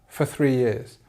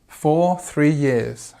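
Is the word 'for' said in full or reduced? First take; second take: reduced; full. First: The word 'for' is quick with a weak vowel. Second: The word 'for' has its full vowel.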